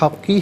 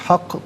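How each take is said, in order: First: The word ends with a short vowel. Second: The word ends on an echoing q consonant. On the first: The reading continues without a stop. "लिल्लाहिल हक़ की है" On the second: The reader stops at this word. "वफ़ की सूरत में हक़ पढ़ा जाएगा"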